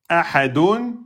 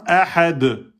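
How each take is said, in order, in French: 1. Le mot se termine par un son final 'un'. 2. Le mot s'arrête sur sa consonne finale.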